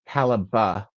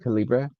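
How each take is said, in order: First: The word is said with an unspelled ending. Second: The word is said as it is spelled. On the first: This is the officially correct way. "it's actually Caliba is the pro- is the correct pronunciation" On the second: This follows the spelling out of habit. "I will continue to call it Calibra. That's how it's freaking spelled"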